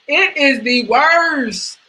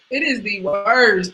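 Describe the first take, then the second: First: Slow, higher, hammed-up wail; crying over giving up chicken; mock crying. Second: Said in the usual way. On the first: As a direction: whine it like fake sobbing. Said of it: "mock crying". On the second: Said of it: "repeat calmer".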